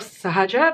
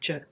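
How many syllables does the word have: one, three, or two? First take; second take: three; one. First: The word is said in full, three syllables. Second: The word is cut down to one syllable. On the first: This is the formal form of the word. "Instead of sahaja" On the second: This is the most casual form of the word. "They say je"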